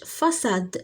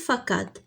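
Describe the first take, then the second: First: The c is pronounced as an s sound. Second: The c is pronounced as a k sound. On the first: The speaker calls it right. "فاساد ماشي فكاد" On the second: The speaker calls it wrong. "ماشي فكاد"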